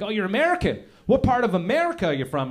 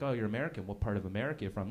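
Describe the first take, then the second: First: Brightly interested small talk; eager curious questioner. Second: Low, quick, offhand questioning; dismissive small talk, rattled off; rude questioner. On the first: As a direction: act out a keen English stranger asking. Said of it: "and they're like". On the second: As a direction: ask softly with no real interest. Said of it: "some of them are rude". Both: Acted.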